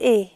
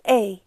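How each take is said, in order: First: The vowel ends flat with a breathy 'eh' sound. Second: The vowel ends with a short 'ee' glide. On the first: The speaker calls it wrong. "بتنطقوا A اخره ه، هو مش A" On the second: The speaker calls it right. "اسمه A، زي I صغيرة كده بتتنطق في الآخر"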